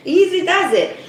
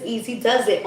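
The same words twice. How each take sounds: First: Higher, louder sing-song take on easy does it; bright teasing repeat of the phrase; playful sing-song. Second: Said in the usual way. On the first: Shown as a demonstration. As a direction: sing it to calm yourself down. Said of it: "So easy does it". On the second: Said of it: "It says".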